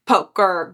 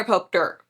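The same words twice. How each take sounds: First: Said in the usual way. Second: "poker" slipped out as "poke-ter"; mispronounced word. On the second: Real, not acted. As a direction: add a stray t inside "poker". Slips, then repeats the word corrected.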